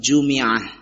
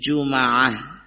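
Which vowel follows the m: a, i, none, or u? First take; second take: i; a. First: The m is followed by an i vowel. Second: The m is followed by an a vowel. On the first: "bisa juga dibaca dengan kasrah" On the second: "bisa difathahkan mimnya"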